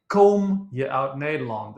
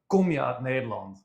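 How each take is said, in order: First: The vowel in kom is long, as in komen. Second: The vowel in kom is short and clipped. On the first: The speaker calls it wrong. "I was saying" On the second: The speaker calls it right. "instead of"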